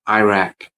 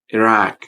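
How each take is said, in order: First: It lacks the 'i' and 'ah' vowel sounds. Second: It uses the 'i' and 'ah' vowel sounds. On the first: The speaker calls it wrong. "Don't say Iraq or Iraq, because they're wrong" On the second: The speaker calls it right. "We need to use the I sound and ah sound, so it would be like this"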